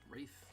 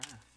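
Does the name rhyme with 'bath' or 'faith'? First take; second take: faith; bath. First: The name rhymes with faith. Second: The name rhymes with bath. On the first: The speaker calls it right. "It's Wraith. They've said it Wraith" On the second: The speaker calls it wrong. "Although people still say Wrath"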